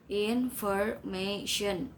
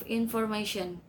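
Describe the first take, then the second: First: "Information" slowly in four beats, IN-FOR-MA-TION; syllable by syllable. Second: Said in the usual way. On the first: Shown as a demonstration. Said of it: "four syllables". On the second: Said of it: "and the others".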